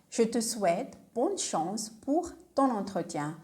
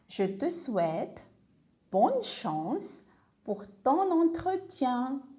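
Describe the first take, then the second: First: It is said at normal speed. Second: It is said slowly.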